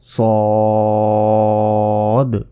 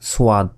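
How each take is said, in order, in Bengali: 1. প্রথম ব্যঞ্জনের পরে কোনো ধ্বনি আসে না। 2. প্রথম ব্যঞ্জনের পরে একটি 'w' ধ্বনি আসে। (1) "বলতে হবে সদ" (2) "আমরা অনেকে এটাকে বলি সোয়াদ ... এটা কিন্তু ভুল"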